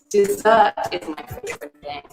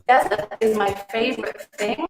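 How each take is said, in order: First: The stress is on the second syllable. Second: The stress is on the first syllable. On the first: The word heard means a sweet course after a meal. The speaker calls it right. "Dessert is a two-syllable word with the stress on the second syllable" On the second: The word heard means a dry sandy place. The speaker calls it wrong. "It's kind of strange"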